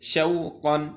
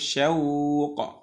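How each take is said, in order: First: The word ends with an added -in syllable. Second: The word ends abruptly on the final consonant. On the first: The reader continues without stopping. "আর যদি না থামি" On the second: The reader stops at this word. "আমরা যদি থেমে যাই"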